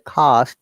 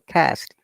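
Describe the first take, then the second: First: The word is said with a British accent. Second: The word is said with an American accent. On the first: "we say" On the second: "they say"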